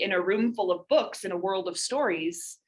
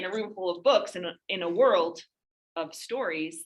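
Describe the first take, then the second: First: It flows smoothly without a break. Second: It breaks awkwardly after "in a".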